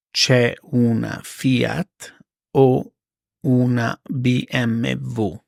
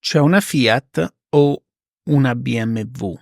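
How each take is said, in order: First: Slow, spaced-out repeat; slow it down for learners; careful slow teacher read; slow and clear. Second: Said in the usual way. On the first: Shown as a demonstration. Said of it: "slow repeat for learners". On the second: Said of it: "example then slow repeat".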